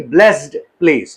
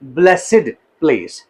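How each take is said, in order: First: Blessed is said as one syllable, 'blest'. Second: Blessed is said as two syllables, 'bless-id'. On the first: The speaker calls it wrong. "न कि ब्लेस्ड place" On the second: The speaker calls it right. "No, ब्लेसिड place"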